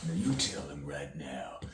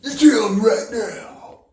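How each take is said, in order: First: Hissed, urgent whispered order; acted whisper. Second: Very high, loud, slow screamed order; acted furious scream. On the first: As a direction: whisper the threat through the teeth. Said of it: "Pretend you're acting in the scene". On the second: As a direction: scream it with everything after being told more feeling. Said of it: "More feeling?".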